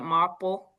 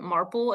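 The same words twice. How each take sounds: First: It is said in a Boston accent. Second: It is said in a plain, non-Boston accent. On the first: "How would the Boston kids say it?" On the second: "it's basically maple with an R"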